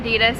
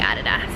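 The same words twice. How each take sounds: First: It is said the American way. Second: It is said the Australian way. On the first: "Americans say Adidas" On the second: "Australians say Adidas"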